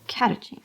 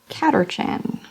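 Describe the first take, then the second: First: The middle syllable is said without an R sound. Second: The middle syllable is said with an R sound. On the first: The speaker calls it right. "this is British E R, which is not actually E R, so Catachan" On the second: The speaker calls it wrong. "It says E R"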